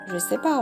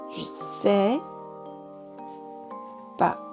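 First: The word je is said in full. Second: The vowel of je is dropped. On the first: "我们就会变成这个样子Je sais pas" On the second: "je 后面的这个我们是可以不发音的"

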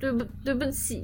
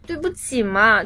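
First: It sounds pleading, begging to be forgiven. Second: It sounds coquettish, playful and sweetly whiny.

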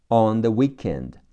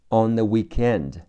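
Both takes have the same delivery.

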